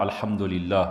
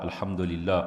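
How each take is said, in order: The two takes are said the same way.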